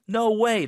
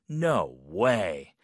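First: It sounds excited and amazed. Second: It sounds doubtful and disbelieving.

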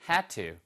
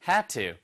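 No difference in how they are said.

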